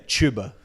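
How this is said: The t in tuba sounds like ch.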